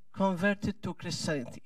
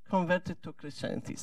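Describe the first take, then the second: No difference in how they are said.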